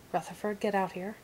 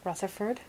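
First: Troll calling out, impatient; troll barking a command at the cave; nasal troll voice, commanding. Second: Rising call in a troll voice; lightly voiced troll calling a name; nasal troll voice. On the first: Acted. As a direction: order him out as a grumpy troll. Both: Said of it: "in his distinct nasal troll voice".

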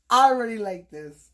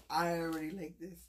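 First: Louder, emphatic delight. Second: Soft repeat. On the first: Reacting to the first gift, loud and emphatic. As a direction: blurt it out with excitement. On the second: Repeating her delight over the gift, soft and to herself. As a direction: murmur it again quietly. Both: Real, not acted.

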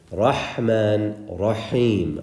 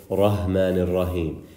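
First: "Rahman, Rahim" with a strong throaty breath on each h; correct breathy ha. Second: "Rahman ar-Rahim" with an ordinary English h; wrong plain h. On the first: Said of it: "we have to learn how to do that". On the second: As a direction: say "Rahman ar-Rahim" lightly, no throat breath on the h. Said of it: "it is not okay to say". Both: Shown as a demonstration.

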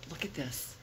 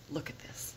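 No difference in how they are said.

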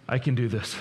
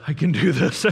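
First: Said in the usual way. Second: Louder, strained desperate repeat; strained mock cry. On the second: Dad in the grocery store pleading with himself, strained and louder. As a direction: push it out like a dad at his limit. Dad's punchline, said twice.

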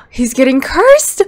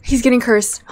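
First: Excited shout. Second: Said in the usual way. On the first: Real, not acted. Repeats with gasp.

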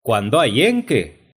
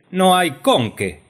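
First: EN punched louder and higher in "en qué"; accent thrown onto EN; stress on EN. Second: CON punched high and loud in "con qué"; accent thrown high onto CON; stress on CON. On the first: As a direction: hit the word EN, not qué. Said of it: "pongan el acento en la primera E". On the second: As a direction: hit the O of CON, not qué. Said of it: "pongan el acento en la O". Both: Acted.

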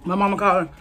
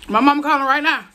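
First: Said in the usual way. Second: Louder and higher, calling out. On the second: Real, not acted. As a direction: raise the voice, pleading for mama. Burning mouth, calling for mama.

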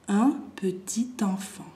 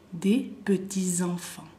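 First: "petit enfant" linked slowly with a t; liaison with t. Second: "petits enfants" linked with a z; liaison with z. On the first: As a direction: sound the t into "enfant": peti-tenfant. ("petit enfant" enlazado con una t, lento) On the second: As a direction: sound the plural as peti-zenfants. ("petits enfants" enlazado con una z) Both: Shown as a demonstration. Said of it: "creo que lo escuchan la diferencia".

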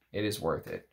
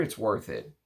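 First: "It is worth it" with the weight on "is"; a low, firm "is" that insists; stress on IS. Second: Said in the usual way. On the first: Real, not acted. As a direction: lean on "is", quiet and sure. Repeating the verdict for emphasis.

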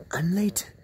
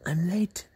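No difference in how they are said.

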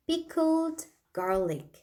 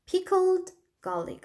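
First: Pickled garlic said very slowly, syllable by syllable; Pickled garlic stretched out for learners; slow model pronunciation. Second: Said in the usual way. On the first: Shown as a demonstration. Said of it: "pickled garlic 하시면 되고요". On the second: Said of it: "하시면 되고요".

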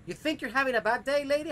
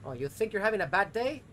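First: Higher, louder, faster outburst; angry rant. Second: Sarcastic, rising irritation; exasperated. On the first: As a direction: let the rage boil over. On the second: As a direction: start the rant annoyed. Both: Real, not acted. Ranting at game character.

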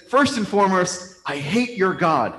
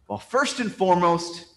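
First: Higher, emphatic, slowing on the final words; acted hateful declaration. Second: Higher-pitched lead-in, held at normal volume; measured objection. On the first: Man tells a priest he hates his God, hammed-up hostility. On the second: Acted. Man starts answering the priest's question, measured objection. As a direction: begin the objection with restraint, pitched up. First, restrained take of man's answer.

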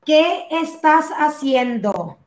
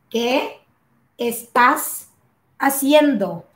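First: Said in the usual way. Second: "qué ... estás ... haciendo" broken up with pauses; word by word. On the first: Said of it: "as a question". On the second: Shown as a demonstration. Teacher breaking the question down for learners, word by word. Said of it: "how to use this".

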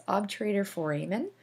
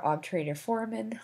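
First: "foramen" said as for-AY-men; alternative pronunciation. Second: "foramen" said as FOR-a-men; alternative pronunciation. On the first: Lecturer offers students one way to say it, "foramen" as for-AY-men. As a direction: stress the long AY in the middle of "foramen". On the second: Lecturer offers the other way to say it, "foramen" as FOR-a-men. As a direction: stress the first syllable of "foramen", middle vowel reduced. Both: Shown as a demonstration. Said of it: "however you like to, uh, say it, pronounce it".

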